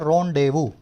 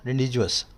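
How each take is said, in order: First: It is said 'rondevoo', ending in 'oo'. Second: It is read letter by letter, ending in 's'. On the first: The speaker calls it right. "लेकिन बोला क्या जाता है?" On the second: The speaker calls it wrong. "इसको क्या लिखा गया है?"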